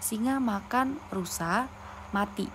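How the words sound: There is a pause after rusa. The lion ate the deer and then the lion died. "ada tanda koma sebelum kata mati atau setelah kata rusa"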